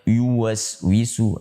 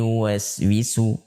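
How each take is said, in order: First: The first sound is heavy and thick. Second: The first sound is light and thin. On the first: The speaker calls it wrong. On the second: The speaker calls it right.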